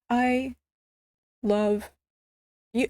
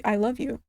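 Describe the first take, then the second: First: "I ... love ... you" with long pauses between words; hesitant, word-by-word "I love you"; halting confession. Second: Said in the usual way. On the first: Retold or imitated. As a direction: draw out "I", then pause before "love" and "you".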